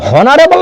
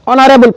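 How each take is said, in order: First: The word begins with an h sound. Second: The word begins directly with a vowel. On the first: The speaker calls it wrong. "इसको हम लोग हॉनरेबल नहीं पढ़ते हैं" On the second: The speaker calls it right. "ऑनरेबल पढ़ते हैं"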